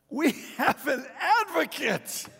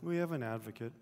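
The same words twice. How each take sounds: First: It is read in an excited, emphatic way. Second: It is read in a casual, indifferent way. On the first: The speaker calls it right. "Read it this way" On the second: The speaker calls it wrong. "just nonchalantly read"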